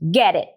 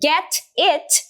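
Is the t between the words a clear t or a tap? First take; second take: tap; clear t. First: The t between the words is a quick tap. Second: The t between the words is a clear t.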